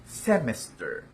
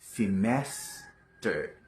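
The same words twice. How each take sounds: First: The stress is not on the second syllable. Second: The stress is on the second syllable. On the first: The speaker calls it wrong. "Mali po yan" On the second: The speaker calls it right. "Ang stress ay nasa second syllable"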